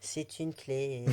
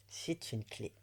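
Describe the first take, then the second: First: Slow, drawn-out playful influencer reveal; mock influencer. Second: Said in the usual way. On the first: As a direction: present it like an influencer unboxing. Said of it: "Je me sens influenceuse, là, tu vois". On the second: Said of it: "Je me sens influenceuse".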